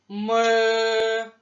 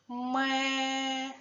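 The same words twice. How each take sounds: First: It is said loudly and roughly. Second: It is said quietly and gently. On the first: A gruff billy goat is speaking. "А хто говорить голосно? Мій друг козел. Хто грубо каже? Вірно, козел" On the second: A gentle nanny goat is speaking. "Хто з нас говорить тихо? Так, це я. ... А хто лагідно? Вірно, кізонька Емма"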